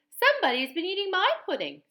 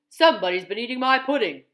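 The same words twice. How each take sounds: First: It is said in a middle-sized voice. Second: It is said in a great big voice.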